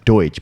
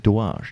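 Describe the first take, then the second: First: The surname is said plainly, English style. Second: The surname is said with a fancy French-like sound. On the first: The speaker calls it right. "my last name" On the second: The speaker calls it wrong. "I like to make it sound fancy"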